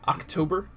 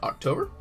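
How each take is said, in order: First: The word is said slowly and clearly. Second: The word is said quickly and slurred. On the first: The speaker calls it right. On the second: The speaker calls it wrong.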